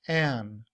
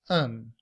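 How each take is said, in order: First: The word has a full, open vowel. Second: The word has a weak schwa vowel. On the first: "this symbol pronounced a and the letter n" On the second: "We reduce that to a schwa and the letter n to pronounce it as un"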